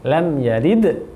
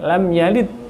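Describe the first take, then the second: First: The final d has a clear bouncing echo. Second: The final d sounds flat, like a t. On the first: The speaker calls it right. "padahal adalah" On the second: The speaker calls it wrong. "tidak diqalqalahkan seperti huruf ta"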